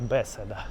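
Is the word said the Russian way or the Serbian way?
Serbian. The word is said with Serbian pronunciation. "По-сербски, наверное, будет беседа"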